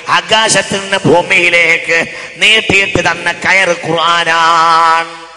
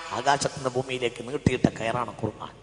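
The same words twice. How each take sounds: First: Loud chant with a long final syllable; sing-song preaching. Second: Said in the usual way. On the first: Shown as a demonstration. Preacher translating scripture for the congregation, loud chanted preaching. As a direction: intone it, drawing out the last word.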